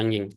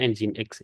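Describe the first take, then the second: First: The word is said short, ending in 'ng'. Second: The word is said longer, ending in 'x'. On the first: The speaker calls it wrong. "Jangan ada yang ngomong nging" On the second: The speaker calls it right. "Cara bacanya Nginx"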